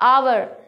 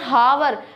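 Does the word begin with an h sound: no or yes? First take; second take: no; yes. First: The word begins with a vowel sound. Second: The word begins with an h sound. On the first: The speaker calls it right. "ये आवर होता है।" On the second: The speaker calls it wrong. "This is not हावर।"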